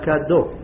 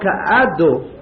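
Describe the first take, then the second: First: The prefix merges into the word with no glottal break. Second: The aleph is sounded separately after the prefix. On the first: The speaker calls it right. "אלא כדו, זה בכף" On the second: The speaker calls it wrong. "לא כעדו, לא אומרים א"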